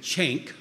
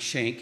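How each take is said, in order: First: CHANK with a CH at the front; distinctive accent. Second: Said in the usual way. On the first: Retold or imitated. Mentor calls the player by name, accented CHANK with CH. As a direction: say Shank as "Chank", starting on a hard CH. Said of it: "distinctive accent, and he said". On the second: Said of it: "not Shank".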